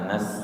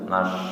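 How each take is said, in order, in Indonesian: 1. Konsonannya adalah bunyi s biasa. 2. Konsonannya adalah bunyi sh. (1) "bukan nas" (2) "tapi nash, suaranya tengah"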